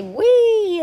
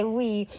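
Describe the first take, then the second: First: High, loud roller coaster squeal; gleeful whee. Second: Said in the usual way. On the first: A narrator's reading. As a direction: let out a big high "whee". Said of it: "ready to say". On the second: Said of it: "But he didn't say".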